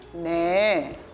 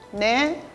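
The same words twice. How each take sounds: First: It is said slowly. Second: It is said quickly.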